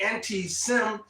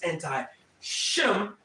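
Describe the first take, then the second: First: The word is said with a plain s sound. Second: The word is said with an sh sound. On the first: This is the Greek-derived form of the word. The speaker calls it wrong. "as I should say it in the pronunciation of that you your your Greekism" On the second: This is the original Hebrew form of the word. The speaker calls it right. "if you go back to the ancient Hebrew, it's anti-Shem"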